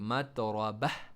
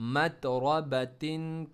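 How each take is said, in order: First: The word ends in a breathy h. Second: The word ends in a t with -in.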